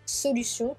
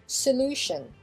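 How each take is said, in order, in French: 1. Il est prononcé à la française. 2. Il est prononcé à l'anglaise, accent sur la deuxième syllabe. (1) "on a solution qui devient" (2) "l'accent sur la deuxième syllabe"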